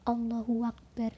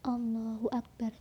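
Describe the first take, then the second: First: A w with a vowel is added between words. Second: The words join directly with no added sound. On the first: The speaker calls it wrong. "wawu yang berharokat" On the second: The speaker calls it right. "Jadi harus langsung Allahu Akbar"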